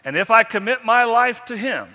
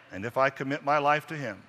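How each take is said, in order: First: High, loud proclamation of faith; booming creed line; loud emphatic recital. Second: Said in the usual way. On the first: Shown as a demonstration. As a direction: ring it out like a vow.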